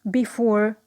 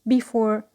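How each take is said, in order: No difference in how they are said.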